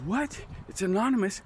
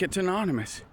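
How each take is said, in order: First: Hushed retold disbelief. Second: Imitating the officer, low and soft; a soft, falling mock-official answer; low-key retold answer. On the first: Inmate questions the officer's answer, in hushed disbelief. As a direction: echo it back under your breath, puzzled. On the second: Officer tells inmate the kite's source, low and matter-of-fact.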